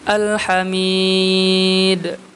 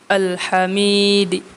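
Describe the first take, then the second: First: The long vowel is held moderately, ending in silence. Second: The vowel is brief; a faint vowel follows d. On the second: "ar-raum ma'al qasri dengan raum dan dibaca dua harakat"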